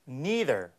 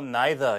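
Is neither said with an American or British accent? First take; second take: American; British. First: The word is said in an American accent. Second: The word is said in a British accent.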